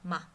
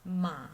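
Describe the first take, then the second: First: The syllable is short, soft and light. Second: The pitch dips low, then rises. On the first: "more like a whisper... goes away quickly and gently" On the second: "it falls from middle to low first, and then it rises from low to high"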